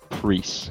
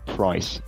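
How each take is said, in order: First: It has an 'ee' vowel, Middle English style. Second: It has the modern English 'price' vowel.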